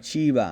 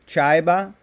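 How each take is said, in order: First: The first vowel is a plain ee sound. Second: The first vowel is an eye sound. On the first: The speaker calls it right. "instead of chiba" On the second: The speaker calls it wrong. "like saying chaiba"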